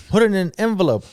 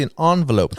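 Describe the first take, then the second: First: Said in the usual way. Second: Envelope said "ahn-velope", French-style; fancy pronunciation. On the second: Shown as a demonstration. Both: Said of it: "or if you wanna be fancy".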